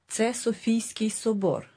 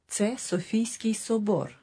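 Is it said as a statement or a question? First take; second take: statement; statement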